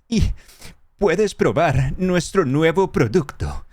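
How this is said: It is said in an acted, dubbing-style tone.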